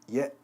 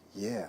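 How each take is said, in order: First: It is cut off sharply with a tight throat. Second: It ends relaxed with air flowing out freely. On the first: The speaker calls it wrong. "By constricting your vocal cords" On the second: The speaker calls it right. "ooh, that feels relaxing"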